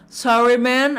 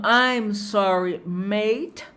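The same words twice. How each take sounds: First: Clear, firm American "sorry, man"; sotaque americano. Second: Slow British "I'm sorry, mate"; sotaque britânico. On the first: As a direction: present the American version. ("sorry, man" com sotaque americano) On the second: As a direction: present the British version slowly. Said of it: "É o inglês britânico". ("I'm sorry, mate" devagar, com sotaque britânico) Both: Shown as a demonstration.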